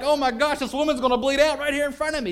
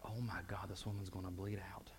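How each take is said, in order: First: High, loud cry of alarm; panicked outburst at full volume. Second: Soft, unvoiced whisper of dread; hushed inner voice of fear; whispered panic. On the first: Retold or imitated. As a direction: blurt it out in terror. Panic, retold with full force. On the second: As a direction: breathe it out like a terrified secret. Panicked private thought.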